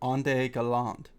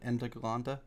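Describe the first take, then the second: First: The phrase is pronounced with French-sounding vowels. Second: The phrase is pronounced with German-sounding vowels. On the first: The speaker calls it wrong. "I did pronounce it French" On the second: The speaker calls it right. "I guess would be the German"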